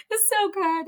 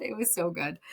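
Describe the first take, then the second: First: High, loud rush of joy; gushing delight. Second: Said in the usual way. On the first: Real, not acted. Friend gushing about a brunch that moved her, high and loud. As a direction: squeal how good it felt.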